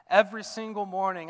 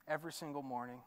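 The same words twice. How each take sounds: First: Louder, pressing the refrain forward; building refrain. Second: Softly, almost to himself; quiet start of a refrain. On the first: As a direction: lift the refrain with growing force. Refrain rising in force. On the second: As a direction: begin the refrain hushed and gentle. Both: Acted.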